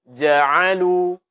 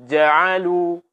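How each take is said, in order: No difference in how they are said.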